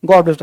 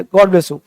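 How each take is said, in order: First: God with a long, drawn-out o; long vowel demo. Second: God with a short, clipped o; short vowel demo. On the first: Teacher to class showing the long sound, God held long. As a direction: hold the vowel in God, Gaad. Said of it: "ये होता है long sound". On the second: Teacher to class showing the short sound, God said short. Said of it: "ये short है". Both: Shown as a demonstration.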